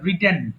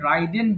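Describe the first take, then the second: First: The first vowel is a short 'i' sound. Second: The first vowel is a long 'eye' sound. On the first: The speaker calls it right. "এটা রিডেন" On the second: The speaker calls it wrong. "এটা অনেকে ভুল করে রাইডেন বলে ফেলে"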